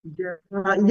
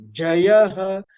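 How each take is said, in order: First: "Jayaha" with a raised ya; upward intonation on ya. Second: "Jayaha" starting on a lowered Ja; downward Anudatta intonation. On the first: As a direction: lift "ya" in "Jayaha". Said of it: "ya carrying upward intonation". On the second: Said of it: "down, Anudatta". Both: Shown as a demonstration.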